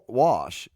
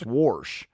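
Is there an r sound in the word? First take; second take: no; yes. First: The word is said with no r sound. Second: An r sound is added before the sh.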